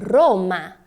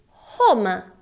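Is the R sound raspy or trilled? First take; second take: trilled; raspy. First: The R is a trilled sound. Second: The R is a raspy sound. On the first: This is the Italian pronunciation. "Em italiano, Roma. Perceba que a sua língua na pronúncia do italiano, ela sobe e treme" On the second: This is the Portuguese pronunciation. "Em português, nós temos Roma"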